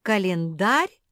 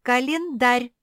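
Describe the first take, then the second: First: Loud rising question Календарь?; blinking disbelief. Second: Loud, high, insistent declaration of Календарь; standing firm. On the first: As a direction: repeat Календарь? in puzzlement. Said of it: "заморгала Куки". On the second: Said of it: "стояла на своём". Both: A narrator's reading.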